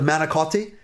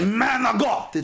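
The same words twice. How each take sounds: First: It is said with a standard American pronunciation. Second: It is said with an Italian-American pronunciation. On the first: "instead of manicotti" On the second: "they say manicotti"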